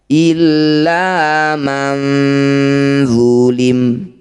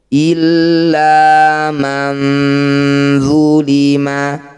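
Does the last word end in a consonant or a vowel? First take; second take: consonant; vowel. First: The final word ends on a bare m. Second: The final word ends with a short vowel. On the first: The reading stops at this word. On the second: The reading continues without stopping.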